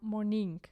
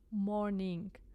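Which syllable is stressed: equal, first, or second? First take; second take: second; equal. First: The stress is on the second syllable. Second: Both syllables are equally loud. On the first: "if we stress this word on the second syllable" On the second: "If we pronounce both syllables equally loud"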